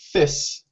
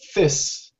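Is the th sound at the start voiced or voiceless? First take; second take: voiceless; voiceless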